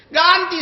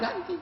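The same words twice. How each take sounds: First: High, louder retold demand; mock yell demanding he replace the glass; demanding shout. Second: High but much softer repeat of the demand; quiet firm repeat of the demand to pay; firm low-volume insistence. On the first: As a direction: bark the order to pay. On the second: Retold or imitated. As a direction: press it quietly, pointedly. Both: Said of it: "saya bilang".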